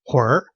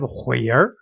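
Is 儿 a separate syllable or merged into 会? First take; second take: merged; separate. First: 儿 merges into the end of 会. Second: 儿 is said as its own separate syllable. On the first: "we read it as a 会儿" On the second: "instead of 会儿"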